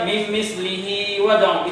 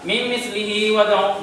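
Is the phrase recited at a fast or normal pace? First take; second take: normal; fast. First: The phrase is recited at a normal, unhurried pace. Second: The phrase is recited quickly, with shorter lengthening. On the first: "itu biasa" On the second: "kalau kita baca cepat"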